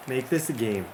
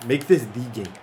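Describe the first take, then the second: First: Said in the usual way. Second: "the" said as a full "thee" before game; stress on "the". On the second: Real, not acted. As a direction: make it "the" game, the one that counts. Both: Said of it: "Doesn't have to be a game".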